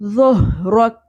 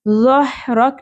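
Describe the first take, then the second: First: The h sound comes from the throat without breath. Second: The h sound has an audible breathy rush. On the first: The speaker calls it right. "इसमें सांस की आवाज़ नहीं आनी चाहिए" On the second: The speaker calls it wrong. "ज़हरक नहीं पढ़ना"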